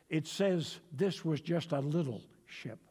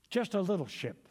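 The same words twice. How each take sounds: First: Said in the usual way. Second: Weighty emphasis on "Just"; stress on just. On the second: Shown as a demonstration. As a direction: land hard on "Just" to underline how small the ship is. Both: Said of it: "I want to emphasize that".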